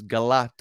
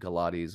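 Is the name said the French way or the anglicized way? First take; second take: French; anglicized. First: It is said as the short French form. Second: It is said as the longer English form. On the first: This is the original form of the name. "was French word" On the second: The name is adapted for English speakers. "we just pronounce it Galati's or whatever because you know to Angloize it"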